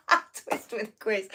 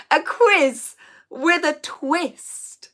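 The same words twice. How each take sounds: First: Said in the usual way. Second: A quiz with a twist drawn out slowly and higher; slow corrected title. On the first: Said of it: "What did I just say?". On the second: Shown as a demonstration. Correcting the flubbed quiz title, slow and careful. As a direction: say quiz with a twist very slowly, each word placed.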